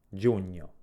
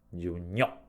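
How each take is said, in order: First: The stress is on the first syllable. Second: The stress is on the second syllable. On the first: "pronunciamo con un volume maggiore la prima delle due sillabe" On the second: "l'accento si trovi sulla lettera O, quindi sulla seconda sillaba"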